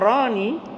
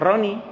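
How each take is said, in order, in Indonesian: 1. Vokalnya dibaca panjang. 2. Vokalnya dibaca pendek dan cepat. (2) "dalam cepat"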